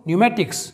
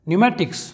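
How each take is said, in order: Both takes have the same delivery.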